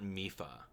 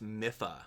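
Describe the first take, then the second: First: "Mifa" as MEE-fuh; long ee. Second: "Mifa" as MIFF-uh; short i. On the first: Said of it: "not Mifa". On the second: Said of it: "it's pronounced Mifa". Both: Shown as a demonstration.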